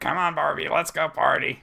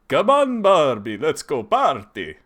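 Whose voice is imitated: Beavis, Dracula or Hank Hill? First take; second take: Beavis; Dracula. First: It is said in a Beavis voice. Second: It is said in a Dracula voice.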